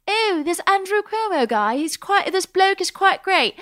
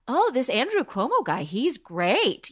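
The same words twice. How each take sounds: First: High-pitched put-on British voice; hammed-up British accent, high and plummy; mock British accent. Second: Put-on swooping, admiring quote in own accent; retold admiring reaction. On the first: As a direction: play an admiring Brit, pitched way up. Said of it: "I wanted you to do other accents". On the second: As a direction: gush with swinging pitch, no accent put on. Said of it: "people who live in the U K that are like".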